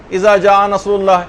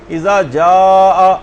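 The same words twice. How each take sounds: First: اذا جاء said with جاء clipped short, no lengthened vowel; a wrong recitation that cuts the madd in جاء short; missing madd. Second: جاء with its long aa stretched out slowly; the correct recitation, drawing جاء out very slowly; with madd. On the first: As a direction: read جاء quickly, without stretching the long aa. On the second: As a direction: hold the madd in اذا جاء for a long count. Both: Shown as a demonstration. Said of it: "یہاں پر ایک مد ہونا چاہیے".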